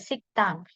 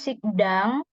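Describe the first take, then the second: First: The second syllable begins with a tense T sound. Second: The second syllable begins with a soft D sound. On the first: The speaker calls it right. "Jadi pakai T" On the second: The speaker calls it wrong. "Bukan sikdang, nggak pakai D jelasnya"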